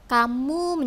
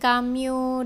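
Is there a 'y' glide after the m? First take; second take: no; yes. First: The m goes straight into the vowel. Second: A y glide follows the m sound. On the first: The speaker calls it right. "kita harus mengucapkan kata-kata itu dengan jelas" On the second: The speaker calls it wrong. "kamu menjadi kamyu"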